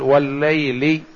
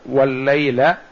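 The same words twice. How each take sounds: First: The word ends with a genitive -i vowel. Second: The word ends with a non-genitive vowel. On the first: The speaker calls it right. "لأن الواو تجر" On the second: The speaker calls it wrong. "ولا يصح أن نقول"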